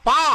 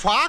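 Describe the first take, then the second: First: The syllable begins with a p sound. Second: The syllable begins with an f sound. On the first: The speaker calls it right. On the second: The speaker calls it wrong. "ఫా కాదురా"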